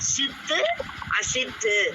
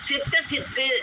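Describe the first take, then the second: First: The two words are said separately, each in full. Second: The two words are run together as one. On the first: "நம்ம எப்படி பிரிச்சு படிக்கிறோம்?" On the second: "சேர்த்து சொல்லலாம்"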